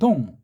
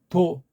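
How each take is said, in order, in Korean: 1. 짧은 한 음절이고, 끝에 ng 받침이 있어요. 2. 두 박자에 걸쳐 길게 나고, 받침 ng 소리는 없어요. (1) "우린 동하잖아요" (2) "일본 발음은 동 한 개가 아니고 두 개로 나고"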